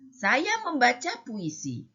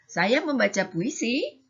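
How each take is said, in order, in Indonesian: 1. Kalimat ini diucapkan dengan nada seruan. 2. Kalimat ini diucapkan dengan nada bertanya. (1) "yang ketiga ada tanda serunya" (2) "yang kedua bertanya, agak ada kan ada tanyanya"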